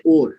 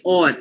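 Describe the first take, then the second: First: "or" with a closed, rounded o, like "ore"; non-local pronunciation. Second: "or" with a long open aw and an r; Indian pronunciation. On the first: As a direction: show the "or" that Indians don't use, like "ore". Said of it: "We don't say or". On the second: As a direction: draw out an Indian English "or", like "awr". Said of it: "You say or, right?". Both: Shown as a demonstration.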